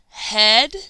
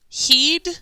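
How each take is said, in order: First: The vowel is a short e sound. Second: The vowel is a long ee sound. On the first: The speaker calls it right. "Is it ed, It is sound two" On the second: The speaker calls it wrong. "So is it eed"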